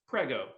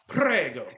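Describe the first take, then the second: First: The R is not rolled, said plainly. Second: The R is strongly rolled, sounding seductive. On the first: "I normally say it like this" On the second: "I just rolled the R trying to sound sexy as all get out"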